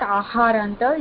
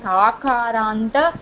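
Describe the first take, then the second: First: The second consonant is an h sound. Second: The second consonant is a k sound. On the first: The speaker calls it wrong. "It is not aharanta" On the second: The speaker calls it right. "it is akaranta"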